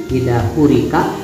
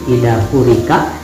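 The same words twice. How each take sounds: No difference in how they are said.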